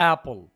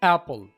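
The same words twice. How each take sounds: Both takes have the same delivery.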